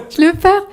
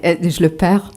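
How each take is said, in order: First: Laughed out, up high and loud; laughing. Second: Said in the usual way. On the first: Real, not acted. Author laughing at losing her Québécois accent, real laugh. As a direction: laugh at your own slip. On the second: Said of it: "J'essaie de le faire et je le perds".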